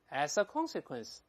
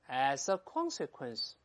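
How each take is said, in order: First: It is read at a slightly faster pace. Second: It is read at a slower pace.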